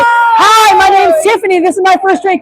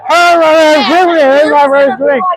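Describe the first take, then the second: First: It is said in a clear, sober voice. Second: It is said in a slurred, drunk voice.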